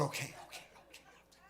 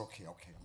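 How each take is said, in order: First: Put-on higher, rushed little-boy okays; squeaky hasty okays. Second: Said in the usual way. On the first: Boy hastily giving in to his irritated mom, high and rushed. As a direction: back down fast, tiny voice.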